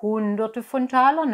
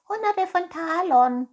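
First: Said in the usual way. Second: High, loud cat echo; murmuring cat. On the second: Acted. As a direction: parrot it greedily in a high cat voice. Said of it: "murmelte die Katze".

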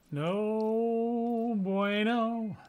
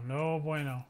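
First: Higher, very slow, stretched No bueno; drawn-out no bueno. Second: Said in the usual way. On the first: Acted. Streamer moans about the new drive, long and high. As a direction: stretch it out like a mournful sigh. Catchphrase stretched out, mock dismay.

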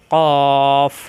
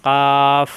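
First: Loud, long, thick "কফ"; heavy articulation. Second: Loud, hard "কাফ" with a clear open "আ"; "কাফ" firm and level, vowel held; firm articulation. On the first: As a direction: sustain a full, level "কফ" from the tongue root. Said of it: "মোটা করে উচ্চারণ". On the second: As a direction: strike a firm "কাফ" off the palate, not thickened. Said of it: "শক্ত করে". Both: Shown as a demonstration.

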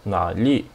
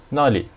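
First: Nali with a low half third tone on na; low, drawn-out teaching take of nali. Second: Nali with a falling fourth tone on na; short falling take of nali. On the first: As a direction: hold na low, then rise at the end of nali. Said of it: "This one is half third tone". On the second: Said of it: "This one is fourth tone". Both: Shown as a demonstration.

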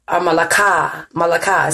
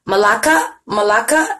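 First: "Malaka" as "muh-luh-KAH", stress on the last syllable, falling; second try at a name. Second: "Malaka" with the middle "la" as "lah", rising like a question; first try at a name. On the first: Host settling on a viewer's name, stress moved to the end. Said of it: "it depends on where you put that emphasis". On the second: Host testing how to say a viewer's name, unsure. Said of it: "Is that how I pronounce it?". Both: Shown as a demonstration.

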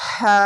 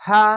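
First: হা with a strong breathy throat sound; হা forced out from the throat, held; throaty haa. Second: হা without the forced throat sound; simple, lightly stretched হা; light haa. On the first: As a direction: push the breath out audibly through a drawn-out হা. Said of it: "এই সাউন্ডটি বের করতে হবে". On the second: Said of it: "ওরকম sound নয়". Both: Shown as a demonstration.

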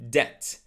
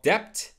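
First: DEBT with a silent B, like "det"; correct debt. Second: DEBT with the B sounded before the T; mispronounced debt. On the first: Teacher modelling debt for learners, silent B. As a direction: drop the B in "debt". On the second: Teacher showing learners the mistake, B sounded in debt. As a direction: say "debt" with an audible B, "debpt". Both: Shown as a demonstration. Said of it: "So that B is silent".

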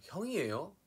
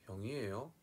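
First: High, loud North Gyeongsang question; North Gyeongsang accent. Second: South Gyeongsang question rising at the end; South Gyeongsang accent. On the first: Contrasting northern and southern regions, North Gyeongsang accent. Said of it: "경상북도 쪽은 약간". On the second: Contrasting northern and southern regions, South Gyeongsang accent. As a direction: ask with a South Gyeongsang lilt, rising last. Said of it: "경상남도 쪽은". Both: Shown as a demonstration.

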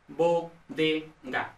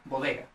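First: Bodega very slowly, broken into bo, de, ga; syllable by syllable. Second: Said in the usual way. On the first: Shown as a demonstration. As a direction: spell out bodega in separate syllables. Mnemonic split into syllables. (bodega, sílaba por sílaba, muy despacio)

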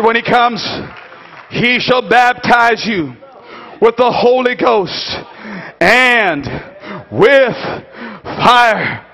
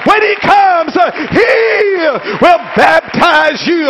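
First: Phrase-by-phrase solemn proclamation; measured solemn preaching. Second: High, emphatic sermon cry; climactic preaching. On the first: Preacher repeating John's promise after the climax, measured and solemn. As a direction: set each phrase apart with pauses. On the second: Preacher proclaiming the baptizer to the congregation, climactic preaching. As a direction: proclaim it high, drawing out the key words. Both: Acted.

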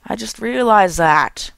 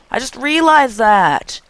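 First: Said in the usual way. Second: Higher, slow dramatic realization; odd tone. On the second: Real, not acted. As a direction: say it in a strange drawn-out high tone. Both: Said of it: "I don't know why I'm talking in this tone".

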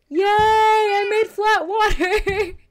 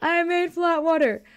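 First: Drawn-out, half-crying cry of triumph; elated wail. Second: Laughing. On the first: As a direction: stretch it out like a happy sob. Celebrates after struggling with water. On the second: Repeats it, laughing. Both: Real, not acted.

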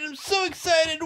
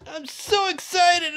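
First: Shouted, punching so; excited shout. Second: Bright high excitement, stress on excited. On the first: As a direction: yell it out, hitting so hard. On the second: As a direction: gush with joy on excited. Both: Acted.

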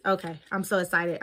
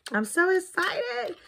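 First: Rushed. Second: Excited. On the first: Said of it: "I'm just rushing". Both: Real, not acted.

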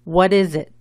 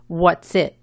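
First: "What is it?" uncontracted, three syllables, stress on "is"; louder model for repeating, "is" kept as its own syllable. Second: "What's it?" contracted into two syllables; wrong contracted form. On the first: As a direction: say "What is it?" in full with a Z in "is". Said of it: "El énfasis va en la segunda sílaba". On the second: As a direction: say "What's it?" with "what" and "is" squashed into "What's". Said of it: "Nunca se dice". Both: Shown as a demonstration.

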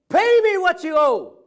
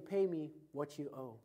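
First: High, loud furious demand with a hand on the throat; angry demand shout. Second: Said in the usual way. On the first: Acted. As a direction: bellow the debt like a choking creditor. Servant choking his fellow debtor.

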